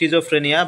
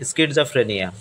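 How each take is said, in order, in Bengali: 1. শব্দটি sh ধ্বনি দিয়ে শুরু হয়। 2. শব্দটি sk ধ্বনি দিয়ে শুরু হয়। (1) "আমরা যদি নর্মাল উচ্চারণ করতে যাই" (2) "বাট সঠিক উচ্চারণটা হবে"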